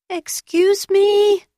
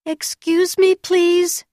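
First: Very high, loud and drawn out; louder call. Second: High, loud call into the dark. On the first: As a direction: call out much louder, slowly. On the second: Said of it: "called out". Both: A narrator's reading.

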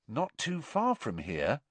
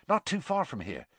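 First: Higher, questioning echo with rising end; significant repetition. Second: High, hushed eagerness; excited Seamus. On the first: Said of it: "Ron repeated, looking significantly". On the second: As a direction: share exciting news, pitched up. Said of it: "who looked excited". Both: A narrator's reading.

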